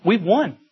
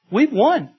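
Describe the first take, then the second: First: Said in the usual way. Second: Higher and rising in triumph, We've won proclaimed; triumphant exclamation. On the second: Acted. Preacher proclaiming victory to church, triumphant.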